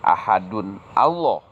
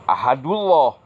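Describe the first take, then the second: First: The two words are kept apart without linking. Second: The two words merge, dropping the final n. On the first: "bukan ahadun Allah ... salah" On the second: "atau ahadullah, salah"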